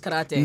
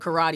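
First: Karate is said with a Japanese pronunciation. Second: Karate is said with an American pronunciation. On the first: The speaker calls it right. "even though I know it's karate" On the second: The speaker calls it wrong. "it's an American habit of me to still call it karate"

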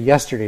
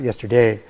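First: The stress is on the first syllable. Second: The stress is on a later syllable. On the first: The speaker calls it right. "because yes, you say yesterday" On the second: The speaker calls it wrong. "not yesterday"

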